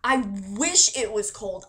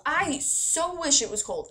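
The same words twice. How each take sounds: First: Said in the usual way. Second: "so" lifted high and stretched; stress on so. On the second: Real, not acted. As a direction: push "so" up high, emphatic.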